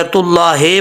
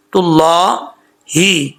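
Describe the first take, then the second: First: तुल्लाहे with the last vowel slackened to ay; mistaken ending. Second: Slow तुल्लाही ending in a clear ee; correct ending. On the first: Teacher warns of a mistake, mispronounced ending. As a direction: end तुल्लाहे on हे instead of ही. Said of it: "पढ़ेंगे तो mistake हो जाएगी". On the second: Teacher corrects the हे mistake, careful tajweed. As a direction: stretch ला, then a clean ही in तुल्लाही. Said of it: "हे नहीं पढ़ना". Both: Shown as a demonstration.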